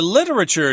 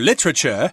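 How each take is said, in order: First: It is said in an American accent, four syllables. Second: It is said in a British accent, three syllables.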